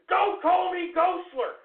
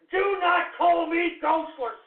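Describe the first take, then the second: First: Said in the usual way. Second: Every word hammered out slowly and raised; slow angry shout. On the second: Real, not acted. Host ordering callers never to use the nickname, slow angry shout. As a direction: lay down the law, word by word.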